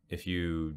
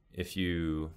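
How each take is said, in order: Both takes have the same delivery.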